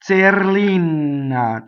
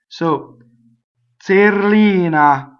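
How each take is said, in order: First: The n sound is held long. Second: The n sound is short. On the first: "double N" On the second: "one N"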